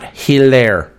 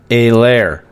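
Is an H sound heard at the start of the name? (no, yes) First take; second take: yes; no. First: The name begins with an audible H sound. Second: The name begins without any H sound. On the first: The speaker calls it wrong. "Not Helaire" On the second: The speaker calls it right. "The H is silent"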